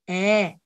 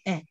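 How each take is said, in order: First: The vowel is held for longer. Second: The vowel is held only briefly. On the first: "긴 에" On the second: "짧은 에 발음이 나요"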